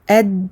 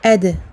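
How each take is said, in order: First: The d stops flat with no bounce. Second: The d is released with a slight bounce. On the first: The speaker calls it wrong. "je ne vais pas dire ad" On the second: The speaker calls it right. "je vais dire ad, je fais rebondir la lettre"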